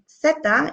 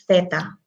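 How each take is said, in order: First: It begins with an s sound. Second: It begins with a th sound. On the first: This is the Latin American way. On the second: This is the way it is said in Spain.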